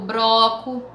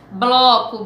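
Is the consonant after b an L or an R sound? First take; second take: R; L. First: The cluster is pronounced with an r sound. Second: The cluster is pronounced with an l sound. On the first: This is an informal spoken variant. The speaker calls it wrong. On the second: This is the standard educated form. The speaker calls it right.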